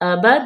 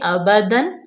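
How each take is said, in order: First: The word ends on a stretched long vowel. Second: The word ends with a clear n sound. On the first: The reader stops at this word. "यहाँ पे हमने वक्फ कर लिया तो एक ज़बर हम ख़त्म कर देंगे और अलिफ को मद्दा कर देंगे" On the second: The reading continues without stopping. "ज़ाहिर करेंगे अबदन"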